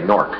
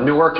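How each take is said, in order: First: The word is said with one syllable. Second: The word is said with two syllables. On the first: This is how locals say it. "If you're from around here, it's N O R K, Nork" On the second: This is how visitors say it. "Newark is two syllables when you come into the airport"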